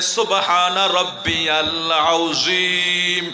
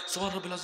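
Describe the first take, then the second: First: It is said slowly and clearly. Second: It is said quickly and unclearly.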